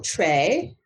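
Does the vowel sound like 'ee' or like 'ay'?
ay. The word ends with an 'ay' vowel. This is how people from elsewhere say it. "because maybe where you're from, you say tray"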